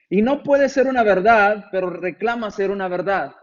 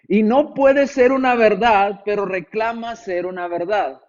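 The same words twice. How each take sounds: First: The sentence is read at a normal pace. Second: The sentence is read more slowly and deliberately.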